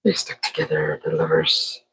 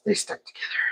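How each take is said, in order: First: Much lower, mock-dramatic deep voice. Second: Whispered, secretive; hushed aside. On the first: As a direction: drop into a big booming movie-trailer low. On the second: Pretend. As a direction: breathe it out like gossip. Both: Voicing the chip lovers.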